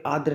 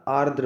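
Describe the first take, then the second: First: आर्द्र without its first r, "aa-dra"; wrong pronunciation. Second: आर्द्र with both r sounds, "aar-dra"; correct pronunciation. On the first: Teacher shows the mistake, आर्द्र as "aa-dra". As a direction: drop the r before d in आर्द्र. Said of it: "नहीं होता". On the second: Teacher gives the right form, आर्द्र as "aar-dra". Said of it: "होता है". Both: Shown as a demonstration.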